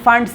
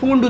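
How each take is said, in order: First: The vowel sounds like 'ah'. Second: The vowel sounds like 'oo'. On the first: The speaker calls it right. "ফান্ড ফান্ড series" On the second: The speaker calls it wrong. "এটা কেউ কেউ ফুন্ড উচ্চারণ করে"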